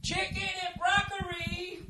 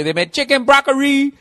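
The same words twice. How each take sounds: First: High, soft slow mock Asian accent on "Chicken and broccoli"; mock Asian accent, drawn out. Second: Said in the usual way. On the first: Shown as a demonstration. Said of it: "I can't say broccoli without, uh, an Asian accent". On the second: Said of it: "I can't say broccoli without".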